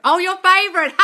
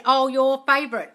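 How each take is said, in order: First: Much higher and louder, playful sing-song; teasing echo. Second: Said in the usual way. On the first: Retold or imitated. Host echoing the son's quip, playful tease. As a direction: tease it back like a proud kid. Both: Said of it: "He said".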